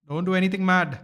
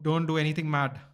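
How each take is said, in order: First: Louder plea. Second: Said in the usual way. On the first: Real, not acted. Fan urging the bowler on, louder plea. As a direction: say it louder and more urgently.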